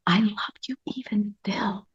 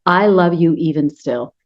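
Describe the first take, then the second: First: Breathless whisper, "I love you even still" with no voice at all. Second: Said in the usual way. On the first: Shown as a demonstration. Speaking to her own shamed inner child, whispering. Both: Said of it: "You can act out".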